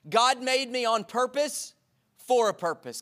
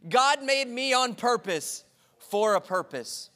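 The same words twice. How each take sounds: First: Slow, each word weighted, purpose stressed; slow emphatic declaration. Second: Slow, every word pressed, GOD punched; extra emphasis. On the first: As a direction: declare it slowly and firmly. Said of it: "Can you say that with me". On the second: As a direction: say it slowly with full emphasis. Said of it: "for extra emphasis". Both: Shown as a demonstration.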